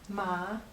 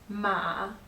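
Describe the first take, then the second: First: The pitch rises from middle to high. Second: The pitch starts low, then gets higher. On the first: It means hemp. "Ma is hemp" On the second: It means horse. "Ma is horse"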